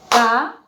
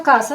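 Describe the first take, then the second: First: "casa" with a long gap, ca... sa; syllable by syllable. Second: Said in the usual way. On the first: Shown as a demonstration. Teacher shows two beats of voice, syllable by syllable. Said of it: "entonces yo digo". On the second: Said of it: "Cuando yo pronuncio casa".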